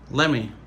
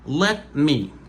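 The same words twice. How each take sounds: First: The phrase is pronounced in a reduced form. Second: The phrase is pronounced fully and carefully. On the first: "dans le langage parlé, les Américains disent" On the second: "c'est prononciation normale"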